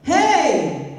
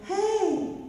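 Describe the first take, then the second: First: It is said in a full chest voice. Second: It is said lightly, not from the chest.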